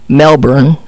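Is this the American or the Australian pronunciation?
American. It is pronounced the way Americans say it. The speaker calls it wrong. "And it's not Melbourne"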